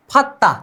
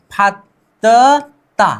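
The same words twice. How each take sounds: First: फत्ता said short, as one word; teacher modelling फत्ता at natural length; joined-up pronunciation. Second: फत्ता stretched very slowly into फत्-त-ता; teacher breaking फत्ता into its sounds; sounded-out demo. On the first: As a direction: say फत्ता in two tight beats with a double त. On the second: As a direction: build फत्ता piece by piece, slowly. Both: Shown as a demonstration. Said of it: "द और द फिर से मिल गए".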